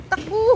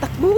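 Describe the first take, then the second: First: Pitched way up, calling to run; higher second shout. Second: Loud sudden shout to run. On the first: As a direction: call it higher, urgent. (mataas na sigaw ng takbo) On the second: (sumisigaw ng takbo) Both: Real, not acted.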